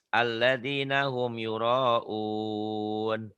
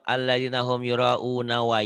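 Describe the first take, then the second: First: The recitation stops on a lengthened final vowel. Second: The word runs on into the next word. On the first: The reader pauses at the end of this word. "kalau mau dihentikan" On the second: The verse is read without stopping here. "berarti mau nyambung"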